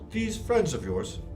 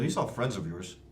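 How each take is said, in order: First: It is said in a mocking, sarcastic tone. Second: It is said in a flat, sincere tone. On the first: The question is not meant seriously. The speaker calls it right. "you gotta be more sarcastic. ... That's a little bit better" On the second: The question seems genuinely meant. The speaker calls it wrong. "Your tone is the same"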